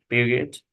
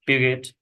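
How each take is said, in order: Both takes have the same delivery.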